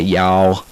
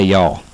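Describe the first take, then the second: First: The word is long and drawn out. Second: The word is said short and quickly. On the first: The speaker calls it wrong. "We don't say y'all" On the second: The speaker calls it right. "We don't drag it out for like an hour"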